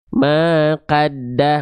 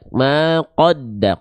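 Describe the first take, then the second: First: The vowel after q sounds like a clear 'a'. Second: The vowel after q sounds close to 'o'. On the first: The speaker calls it wrong. "nggak dibaca maqadda" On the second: The speaker calls it right. "tapi maqo maqoda maqodda ko, bukan ka"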